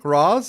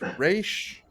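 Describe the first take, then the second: First: The name ends with a z sound. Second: The name ends with an sh sound. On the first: The speaker calls it wrong. "is that how you pronounce it? It's like no, no, it's not how you pronounce it" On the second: The speaker calls it right. "It's Raish Al Ghul"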